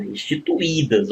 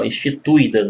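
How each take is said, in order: First: "instituídas" with the u-i split into a hiatus; "instituídas" said carefully, syllable by syllable; correct pronunciation. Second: "instituídas" run together as a diphthong; "instituídas" with the ui glided, as the mistake; wrong pronunciation. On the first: Teacher shows students the right "instituídas". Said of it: "não, instituídas". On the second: Teacher warns students against this "instituídas". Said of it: "Você não pode pronunciar isso aqui". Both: Shown as a demonstration.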